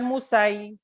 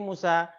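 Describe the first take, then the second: First: The word ends with an added 'i' sound. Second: The word ends with a plain long 'a'. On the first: The speaker calls it wrong. "Bukan Musai" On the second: The speaker calls it right. "tapi Musa"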